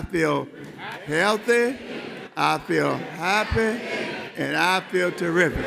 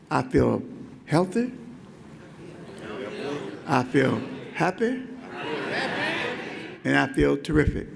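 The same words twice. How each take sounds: First: It is said a little louder. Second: It is said at a normal volume.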